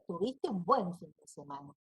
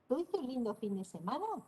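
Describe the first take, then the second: First: It is said with an affirming statement intonation. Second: It is said with a questioning intonation. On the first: The speaker assumes the weekend was good. "y estoy afirmando" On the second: The speaker is asking about the weekend. "Ahí estoy preguntando"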